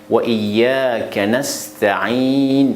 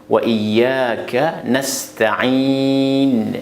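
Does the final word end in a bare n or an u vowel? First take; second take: bare n; bare n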